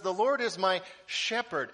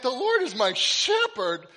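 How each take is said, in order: First: Said in the usual way. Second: "The Lord is my shepherd" read aloud higher, louder and slow in mock dismay. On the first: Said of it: "but it says". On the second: Pastor reenacting finding the misspelled card, mock dismay. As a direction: groan the line out like you just spotted the typo. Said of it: "And I went".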